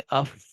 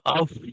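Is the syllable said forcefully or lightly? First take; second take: light; forceful. First: The syllable is said softly and lightly. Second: The syllable is said with strong force. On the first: The speaker calls it right. "बल्कि अफ पढ़ लेंगे" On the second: The speaker calls it wrong. "अफ ऐसे करके नहीं पढ़ेंगे क्योंकि ना ये कवि भी नहीं है"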